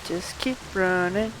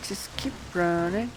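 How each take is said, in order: Both takes have the same delivery.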